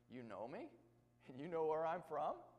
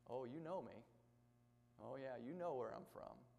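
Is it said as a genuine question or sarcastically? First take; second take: question; sarcastic. First: It is asked as a genuine question. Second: It is said sarcastically, tongue in cheek.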